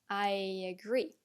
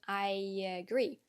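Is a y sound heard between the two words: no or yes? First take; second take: yes; yes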